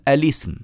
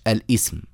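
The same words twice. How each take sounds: First: الاسم linked as "alism"; الاسم said correctly as "a-lism"; no hamza, joined. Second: الاسم broken as "al-'ism"; the wrong reading "al-'ism" of الاسم; hamza sounded, mistaken. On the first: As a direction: run "al" into "ism" without a glottal stop in الاسم. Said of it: "ونقول الاسم مش الاسم". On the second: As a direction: cut الاسم with a glottal stop before "ism". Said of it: "مش الاسم". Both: Shown as a demonstration.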